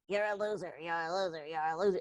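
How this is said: It is said in a Mickey Mouse voice.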